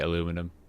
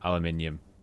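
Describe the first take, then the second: First: The word ends with a short 'num' sound. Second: The word ends with a 'nee-um' sound. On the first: The speaker calls it right. "You are right in how you say it" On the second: The speaker calls it wrong. "and I say neum"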